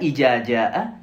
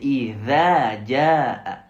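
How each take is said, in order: First: The consonant is made without the tongue between teeth. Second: The consonant is made with the tongue between teeth. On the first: The speaker calls it wrong. "C'est pas ija jaa" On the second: The speaker calls it right. "avec la langue coincée entre les dents sur cette lettre"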